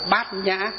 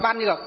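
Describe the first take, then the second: First: The term is read as bat nha. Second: The term is read as ban nhuoc. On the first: This is the Buddhist reading. "chỉ có Phật giáo chúng ta mới đọc là gì? Đọc là bát nhã" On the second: This is the ordinary dictionary reading. "Hai chữ đó rõ ràng là đọc là ban nhược"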